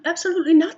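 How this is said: It is said in a put-on imitating voice. "That's my Ilsa voice"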